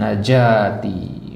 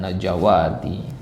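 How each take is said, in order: First: No w sound is read inside the word. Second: A w sound is read inside the word. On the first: The speaker calls it right. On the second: The speaker calls it wrong.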